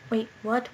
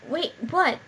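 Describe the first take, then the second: First: Said in the usual way. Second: Surprised. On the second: Real, not acted. Confused reading the script.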